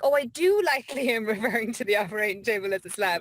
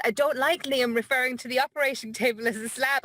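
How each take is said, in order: First: "do" stressed, laughing through "I do like"; corrected reading with a laugh. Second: "like" rising, read as "I don't like"; misread version. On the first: Host rereads the message correctly, laughing and stressing "do". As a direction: land on "do" with a relieved laugh. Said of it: "And then I read it again". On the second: Host acts out first misreading of a message, "like" rising. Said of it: "At first, I thought it said". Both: Retold or imitated.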